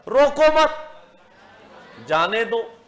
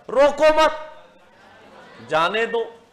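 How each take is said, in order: First: The pause comes after मत. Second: The pause comes after मत.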